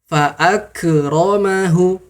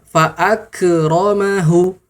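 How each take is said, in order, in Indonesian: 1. K dilepaskan dengan gema yang memantul. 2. K dilepaskan dengan gema yang memantul.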